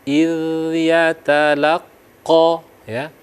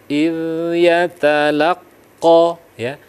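The two takes are said the same way.

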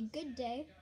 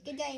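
First: It is said in an English accent. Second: It is said in an Australian accent. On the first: "you can just say good day, sound more English" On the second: "You say, good day, mate"

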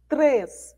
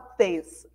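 First: The word is said with an r after the t. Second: The word is said without an r after the t. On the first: The speaker calls it right. "a gente fala três" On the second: The speaker calls it wrong. "A gente não fala três"

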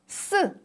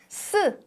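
Both takes have the same delivery.

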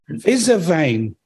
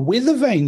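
First: It is said with a put-on German accent. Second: It is said with a plain English accent. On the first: "I had a German friend once said" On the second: "Oh, weather vane, you mean?"

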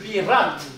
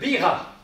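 First: The name ends with a sounded final t. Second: The name ends without a final t sound.

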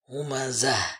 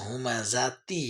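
First: The word ends with an h sound. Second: The word ends with a t sound. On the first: The reading stops after this word. "কিন্তু আমি বলছি হুমাজাহ" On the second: The reading continues into the next word. "হুমাজাতি হওয়ার কথা"

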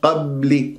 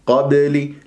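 First: The b is held closed without release. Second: The b is released with a slight bounce. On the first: The speaker calls it wrong. "شوف وقفت على المخرج" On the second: The speaker calls it right. "القلقلة أن تضرب المخرج"

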